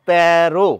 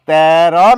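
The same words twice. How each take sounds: First: The word ends in an 'o' vowel. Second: The word ends in an 'a' vowel. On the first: The speaker calls it right. "বলছি তেরো" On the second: The speaker calls it wrong. "তেরো না বলে"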